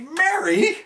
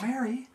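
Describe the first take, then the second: First: It is said in an exasperated manner. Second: It is said in a direct manner.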